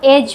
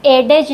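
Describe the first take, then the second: First: Said in the usual way. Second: एडेज with the D sounded; wrong pronunciation. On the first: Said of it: "पढ़ते हैं". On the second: Shown as a demonstration. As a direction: say एडेज in two syllables, pronouncing the silent D. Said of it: "नहीं बोलते हैं इसको".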